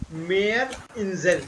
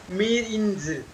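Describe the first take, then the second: First: Meerinsel slowly, split as "mayr - in-zel"; correct pronunciation. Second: Meerinsel run together as "meer-in-zel"; wrong pronunciation. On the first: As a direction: say Meerinsel as two separate words, long ay first. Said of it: "These are two separate words". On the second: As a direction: say Meerinsel as one word with an ee vowel. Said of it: "It is not Meerinsel". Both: Shown as a demonstration.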